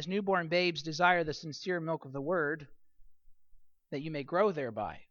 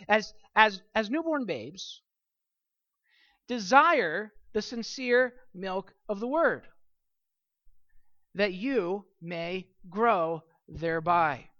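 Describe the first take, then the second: First: It is read as a plain description. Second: It is read as an emphatic command.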